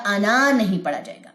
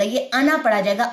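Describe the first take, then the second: First: انا with long drawn aa; wrong pronunciation. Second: انا with short a, alif silent; correct pronunciation. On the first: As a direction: stretch انا wrongly as انااا. (انا لمبا کر کے، غلط) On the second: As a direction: say انا short, not انا with long aa. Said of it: "تو یہ الف نہیں پڑھا جائے گا". (انا مختصر، الف خاموش) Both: Shown as a demonstration.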